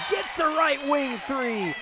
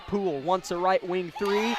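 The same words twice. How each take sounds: First: High, drawn-out exclamation falling on "three"; excited scoring call. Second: "three" left hanging on a rising tune; suspenseful call. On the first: Commentator calling a made three, excited and drawn out. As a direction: stretch it out high as the shot drops. Shot goes in, live play-by-play. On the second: Commentator as Poole shoots, suspenseful with rising "three". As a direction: hold the suspense, lifting up on "three". Shot attempt in live play-by-play. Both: Real, not acted.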